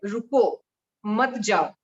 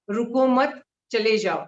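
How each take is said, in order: First: "रुको" alone, a clear break, then "मत जाओ"; pause after रुको. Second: "रुको मत" run together, then a break before "चले जाओ"; pause after मत. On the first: Teacher showing the other comma position, slowly, pausing after रुको. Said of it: "और दूसरा होता है". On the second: Teacher showing how a comma changes meaning, pausing after मत. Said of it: "comma लगाने की बात होती है". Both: Shown as a demonstration.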